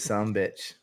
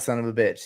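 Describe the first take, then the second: First: The words are run together as two syllables. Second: Each word is said fully and separately. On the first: The speaker calls it right. "It is some bitch" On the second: The speaker calls it wrong. "it's not son of a bitch"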